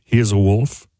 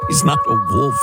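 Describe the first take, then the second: First: Mock forced low voice; Elizabeth Holmes. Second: Said in the usual way. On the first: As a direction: lightly imitate her low, solemn delivery. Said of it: "talked in this weirdly forced low voice".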